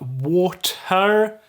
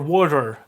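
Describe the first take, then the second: First: The middle consonant is a clear, hard T. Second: The middle consonant is a quick tap. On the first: The speaker calls it wrong. "it's not water" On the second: The speaker calls it right. "it's more like a, a tap than a D or a T"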